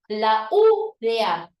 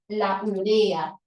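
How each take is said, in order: First: The stress is on the first syllable. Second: The stress is on a later syllable. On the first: The speaker calls it wrong. "con tilde en la u" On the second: The speaker calls it right. "lo correcto hoy debería ser la urea"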